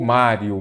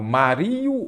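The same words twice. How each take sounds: First: "Mário" said MÁ-rio, first syllable strong; stress on MÁ. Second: "Mario" said ma-RI-o, the I drawn out; stress on RI. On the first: Teacher offering the right option, Mário stressed on MÁ. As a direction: put the weight on the MÁ of "Mário". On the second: Teacher testing students with the wrong option, Mario stressed on RI. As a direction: put the weight wrongly on the RI of "Mario". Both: Shown as a demonstration. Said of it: "Eu falo Mario ou Mário?".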